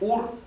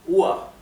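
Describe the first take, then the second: First: The final r is sounded as a consonant. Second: The final r is sounded like an a vowel. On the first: The speaker calls it wrong. "en vez de pronunciarse UR" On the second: The speaker calls it right. "se pronunciaría UA"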